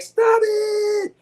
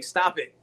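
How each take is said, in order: First: Sudden high shout of stop it. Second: Said in the usual way. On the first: Retold or imitated. Mocking a movie scene, high yelled stop it. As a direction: yell it out as a mock outburst. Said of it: "He's like". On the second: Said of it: "Chalice is doing".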